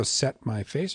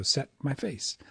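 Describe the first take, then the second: First: "set my face" with "my" given full length; "set my face" in three even beats; first option. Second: "set" apart, "my" quick and soft into "face"; "set my face" as long, short, long; second option. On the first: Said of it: "you can go". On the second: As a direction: pause after set, shorten my. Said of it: "or you can go". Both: Shown as a demonstration.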